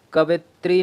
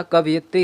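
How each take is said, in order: First: कवित्री with no "yi" syllable; wrong pronunciation. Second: कवयित्री with "yi" sounded; correct pronunciation. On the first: Teacher showing students the error, कवित्री without "yi". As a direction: say कवित्री short, ka-vi-tri. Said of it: "कवित्री नहीं होता". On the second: Teacher correcting students' spelling, कवयित्री with clear "yi". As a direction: say कवयित्री as ka-va-yi-tri. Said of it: "कवयित्री होता है". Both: Shown as a demonstration.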